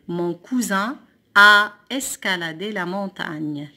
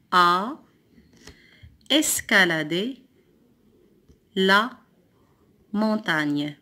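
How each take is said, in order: First: Slow, louder, joined-up sentence reading; whole sentence. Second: Long pauses between a, escaladé, la, montagne; word by word. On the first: Teacher reading the rebuilt sentence whole, slowly. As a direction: read the sentence through slowly and firmly. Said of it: "découpe les phrases puis recopie-les". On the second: Teacher cutting the sentence into words, word by word. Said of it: "Le deuxième mot". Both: Shown as a demonstration.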